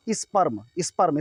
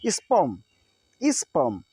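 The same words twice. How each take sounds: First: स्पर्म with the R sounded before m; as written. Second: स्पर्म as "spuhm", no R; silent R. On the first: Teacher reading the spelling, R sounded. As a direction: pronounce the R in स्पर्म. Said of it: "आगे लिखा है". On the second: Teacher modelling for students, silent R. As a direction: go from the vowel straight to m in स्पर्म. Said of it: "इसको बोलेंगे". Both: Shown as a demonstration.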